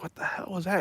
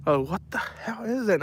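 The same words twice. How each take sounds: First: Hushed and spooked, much softer; a wary half-whisper in the dark garage; softly asking what the noise was; startled hushed question. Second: Higher, softer, spooked voice; startled by a hissing possum; startled cry. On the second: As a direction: jump at the noise and ask what it is. Reacting to hissing animal. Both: Retold or imitated.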